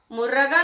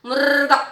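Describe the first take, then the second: First: मुर्गा as three syllables, "mu-ra-gaa"; a full vowel after the r in मुर्गा; wrong split pronunciation. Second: मुर्गा as "murrr-gaa"; correct rolled r. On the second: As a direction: trill the r of मुर्गा straight into "gaa". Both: Shown as a demonstration. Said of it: "मुर्गा नहीं ना".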